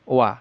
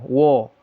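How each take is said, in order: First: The vowel is thin and open, like 'wa'. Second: The vowel is thick and rounded, like 'wo'. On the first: The speaker calls it right. "tapi dibaca wa" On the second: The speaker calls it wrong. "jangan dibaca wo"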